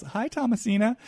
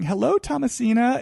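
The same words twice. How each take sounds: First: A sugary "Hi, Thomasina" rising at the end; Kathy's greeting. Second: Sing-song high "Hello, Thomasina"; Kathy's greeting. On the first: Acted. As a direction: play it innocent and sweet. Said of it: "drop into Kathy towards Sutton as she says". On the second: Retold or imitated. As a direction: greet her with sweet fake charm. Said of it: "greets Sutton ... by saying".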